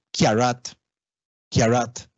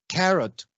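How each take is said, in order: First: KIARAT as 'kya-rat', twice; Creole palatalization. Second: CARROT with a plain 'ka'; English pronunciation. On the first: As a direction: say KIARAT with 'ky' onset. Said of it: "en criol tienen una palatalización". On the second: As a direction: say CARROT as 'ka-rot'. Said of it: "En lugar de carrot". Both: Shown as a demonstration.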